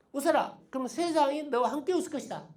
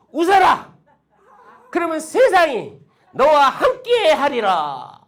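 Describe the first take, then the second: First: Said in the usual way. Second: High, very loud, drawn-out declaration; booming proclamation. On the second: Shown as a demonstration. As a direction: proclaim it slowly like an oracle. 명언을 크게 선포, 이어 평이하게 반복. (크고 길게 늘여 선포하듯)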